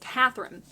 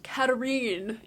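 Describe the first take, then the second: First: The name is said with a 'th' sound. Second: The name is said with a 't' sound. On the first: The speaker calls it wrong. "the wrong way to pronounce her name" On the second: The speaker calls it right. "Apparently her name is pronounced Katarine"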